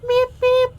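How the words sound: It is said in a high-pitched voice. "like a high pitched"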